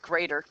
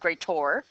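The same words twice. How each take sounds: First: The word ends with a plain 'er' sound. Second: The word ends with an 'or' sound. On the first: The speaker calls it right. "it's just greater" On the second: The speaker calls it wrong. "I'm saying greater wrong on purpose"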